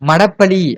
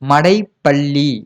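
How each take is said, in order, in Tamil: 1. இரண்டாவது உயிர் ஒலி வெறும் 'a' தான். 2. இரண்டாவது உயிர் ஒலி 'ai' தான்.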